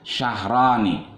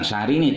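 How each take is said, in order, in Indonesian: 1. Vokal tengahnya terdengar seperti 'a'. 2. Vokal tengahnya terdengar seperti 'i'. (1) "tapi syahrani" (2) "bukan syahrini"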